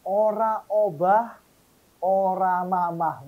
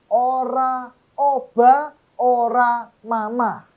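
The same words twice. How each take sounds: First: Unhurried Javanese recitation of "Ora obah, ora mamah", each word spaced out; lambat, logat Jawa; Javanese proverb, slow. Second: Higher, louder, slow Javanese proverb "Ora obah, ora mamah"; emphatic proverb. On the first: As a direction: say it slowly in Javanese, careful and even. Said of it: "kurang pas cara mengucapkannya, lagunya, dialeknya". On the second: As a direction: proclaim it slowly, each word landing hard. Repeats proverb with force. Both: Shown as a demonstration.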